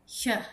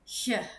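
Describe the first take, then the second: Both takes have the same delivery.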